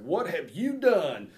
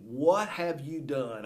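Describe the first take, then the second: First: It is said in an accusing, scolding tone. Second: It is said in a plain, neutral tone. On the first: The listener is in trouble. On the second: It is a simple question.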